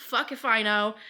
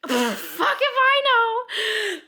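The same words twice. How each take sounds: First: Said in the usual way. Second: Loud, high, drawn-out mock wail; clueless outburst. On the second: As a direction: blurt it out long and high, totally clueless. Acted clueless reaction when merging.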